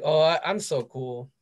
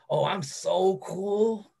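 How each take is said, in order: First: It sounds humble and plain. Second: It sounds emphatic and stressed.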